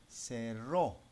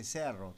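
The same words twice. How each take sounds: First: "cerró" as se-RRÓ, final O stressed; stress on last syllable. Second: "cerro" as SE-rro, first syllable stressed. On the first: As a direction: land firmly on the RRÓ of "cerró". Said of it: "No, no cerro, ahí dice cerro". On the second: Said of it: "Si le dejo sin tilde, dice la montaña". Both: Shown as a demonstration.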